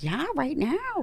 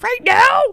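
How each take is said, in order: First: Slow, soft, higher mock-doctor reply; matter-of-fact doctor. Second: High, loud squeal of disbelief; retold shocked question. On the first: Doctor answering panicked patient, soft matter-of-fact reply. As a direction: imitate the doctor confirming it, unhurried and quiet. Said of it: "And she's like". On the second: Patient told the scalpel is coming, shocked squeal. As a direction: imitate a panicked patient, pitch shooting up. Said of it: "And, and I'm like".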